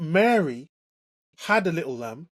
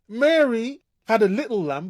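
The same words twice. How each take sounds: First: The stress is on the word had. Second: The stress is on the word little.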